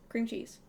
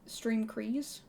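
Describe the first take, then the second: First: The second word begins with a 'ch' sound. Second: The second word begins with a 'cr' sound. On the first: The speaker calls it right. "it's actually cream cheese" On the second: The speaker calls it wrong. "I think it was stream crease"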